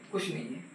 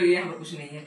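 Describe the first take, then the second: First: Softer, dropped-away repeat of the point; quiet repeat. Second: Said in the usual way. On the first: Shown as a demonstration. Teacher to students, repeating the point softly. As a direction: repeat it softly, almost to yourself.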